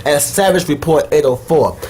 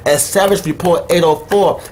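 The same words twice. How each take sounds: The two takes are said the same way.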